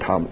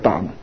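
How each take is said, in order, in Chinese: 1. 读姓淡的声调。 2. 读 'bland' 的声调。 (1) "讀個淡，姓淡個淡" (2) "唔好讀個淡，好多人讀錯咗嘅"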